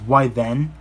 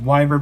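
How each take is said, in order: First: The word is said with a British pronunciation. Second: The word is said with an American pronunciation. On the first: "in the U K it's pronounced as" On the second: "here in the States we pronounce it as"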